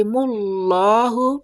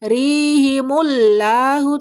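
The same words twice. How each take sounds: First: Mullahu with heavy, rounded lo; thick Allah in mullahu. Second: Rihimullahu with light, open la; wrongly thin the la in rihimullahu; thin Allah in rihimullahu. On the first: Teacher corrects the reading, thick lo in mullahu. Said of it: "lafaz Allah dibaca tebal". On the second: Teacher shows what to avoid, thin la in rihimullahu. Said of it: "Jangan dibaca". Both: Shown as a demonstration.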